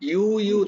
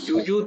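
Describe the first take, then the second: First: The word begins with a 'y' sound. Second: The word begins with a 'j' sound. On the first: The speaker calls it right. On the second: The speaker calls it wrong.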